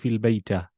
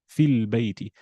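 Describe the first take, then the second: First: The last word ends in an 'a' vowel. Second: The last word ends in an 'i' vowel. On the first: The speaker calls it wrong. "you can't say fil bayta" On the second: The speaker calls it right. "fi makes everything that comes after it kasra"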